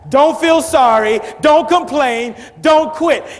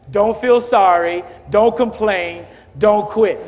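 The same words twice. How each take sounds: First: It is yelled at full volume. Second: It is said louder than before.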